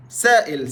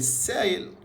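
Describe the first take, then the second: First: Loud سائل, "sa'il", with a glottal break; standard Arabic hamza. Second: سايل said "sayel" with a y glide; no glottal break in سايل; Egyptian y for hamza. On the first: (سائل بالفصحى، بالهمزة) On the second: (سايل بالمصري، ياء بدل الهمزة) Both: Shown as a demonstration. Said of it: "احنا غيرنا الهمزة على نبرة ليا".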